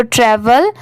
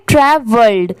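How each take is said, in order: First: "ट्रैवल" ending on L; travel pronunciation. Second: "ट्रैवल्ड" in two careful parts, ending in D; travelled pronunciation. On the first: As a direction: say "ट्रैवल" with no D at the end. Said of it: "तो इसे ट्रैवल पढ़ेंगे". ("ट्रैवल", आखिर में ड नहीं) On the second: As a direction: say "ट्रैवल्ड" as "ट्रै-वल्ड", with the D added. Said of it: "तो इसे क्या पढ़ेंगे?". ("ट्रैवल्ड", आखिर में ड की आवाज़) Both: Shown as a demonstration.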